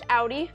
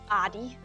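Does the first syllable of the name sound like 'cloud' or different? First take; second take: like cloud; different. First: The first syllable sounds like the one in 'cloudy'. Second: The first syllable does not sound like 'cloudy'. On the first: The speaker calls it right. "It's pronounced Audi, so like cloudy Audi" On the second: The speaker calls it wrong. "the most mispronounced way of saying it"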